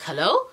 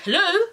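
First: Said in the usual way. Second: High-pitched posh phone hello. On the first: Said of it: "I'm like". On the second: Retold or imitated. Unknown caller greeting her by phone, posh and high. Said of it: "like a posh, like, voice".

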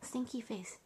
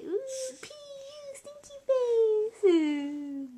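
First: Said in the usual way. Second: High, slow, whining mock cry on "Ooh, pee, stinky face"; mock disgusted whine. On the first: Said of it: "what about stinky face?". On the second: Shown as a demonstration. Mom showing her daughter how Stinky whines, a high slow mock cry. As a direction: stretch "stinky face" into a slow fake sob. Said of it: "Stinky say".

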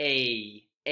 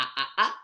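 First: "A" as the long English vowel, the name-of-the-letter ei glide; teacher demonstrating the long "A" as in mate; long a sound. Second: "A" as the short English vowel of cat, an open flat æ; teacher demonstrating the short "A" as in cat; short a sound. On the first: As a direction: say "A" like the a in mate, gliding ei. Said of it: "y el long A". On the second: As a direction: say "A" like the a in cat, short and clipped, repeated. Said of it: "Está el short A". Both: Shown as a demonstration.

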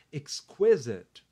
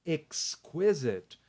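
First: Exquisite said slowly as ex-KWI-zit; pronunciation demo. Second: Exquisite drawn out very slowly, ex-kwi-zit; teacher repeating Exquisite very slowly. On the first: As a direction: spell out exquisite carefully. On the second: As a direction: stretch Exquisite syllable by syllable. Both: Shown as a demonstration. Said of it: "A pronúncia é exquisite".

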